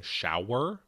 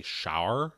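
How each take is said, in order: First: Said in the usual way. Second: "shower" squashed toward one syllable, like "shar"; Pittsburgh pronunciation. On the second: Shown as a demonstration. Host showing a slip into home accent, Pittsburgh "shower" like "shar". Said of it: "sometimes I'll say".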